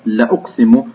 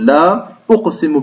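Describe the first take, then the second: First: The first vowel is short, without the alif. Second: The first vowel is long, with the alif. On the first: It is an emphatic affirmation of the oath. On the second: It opens with a negating word.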